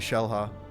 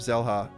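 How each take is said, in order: First: The name begins with an 'sh' sound. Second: The name begins with a 'z' sound. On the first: "Like pronouncing the X like a Chinese word" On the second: "I've been pronouncing her name"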